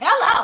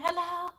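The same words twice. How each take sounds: First: The greeting is said loudly and with energy. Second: The greeting is said quietly and weakly. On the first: The speaker sounds like their usual self. The speaker calls it right. "I just put it out there like" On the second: The speaker is feeling down. The speaker calls it wrong. "that doesn't sound like you"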